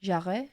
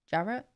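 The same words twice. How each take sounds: First: "Jarrett" as "zha-ray", rising in question; French-style pronunciation. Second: "Jarrett" as "JA-ret", rising in question; English-style pronunciation. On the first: Guessing at a foreign pronunciation. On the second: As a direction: ask "Jarrett" with a hard English J. English version after French guess. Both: Shown as a demonstration.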